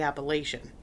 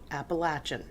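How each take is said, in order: First: It uses the speaker's local, northern pronunciation. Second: It uses the southwestern Virginia pronunciation.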